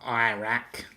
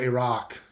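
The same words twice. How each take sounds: First: It is said with the American pronunciation. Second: It is said without the American pronunciation. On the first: The speaker calls it wrong. "not Iraq. That's that's not how I don't believe that's how it's pronounced" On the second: The speaker calls it right. "I call it Iraq. That that's how I pronounce it"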